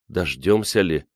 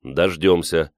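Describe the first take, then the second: First: Understated constricted question; choked voice. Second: Firm, settled one-word answer; confident. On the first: Liza doubting rescue will come, voice choked. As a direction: doubt it with a slightly tight throat. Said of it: "сдавленным голосом произнесла Лиза". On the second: Chistyakov reassuring Liza of rescue, confident. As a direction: affirm it without doubt. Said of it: "уверенно сказал Чистяков". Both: A narrator's reading.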